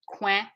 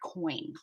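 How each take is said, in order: First: The vowel is a nasal 'wa' sound. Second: The vowel is an 'oy' sound. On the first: "it's a ouin sound" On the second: "this is an oi sound"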